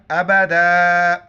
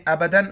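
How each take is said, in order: First: अबदा slow, ending on long aa; अबदा drawn out, no n at the end; pausal form. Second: अबदन ending on an n; अबदन closed off with a nasal n; non-pausal form. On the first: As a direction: stop on अबदा with an open, held final vowel. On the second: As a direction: say अबदन quickly with the final न sounded. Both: Shown as a demonstration. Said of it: "तो वक्फ की हालत में".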